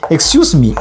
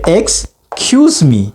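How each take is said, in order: First: It is said very fast. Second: It is said at a normal, careful speed.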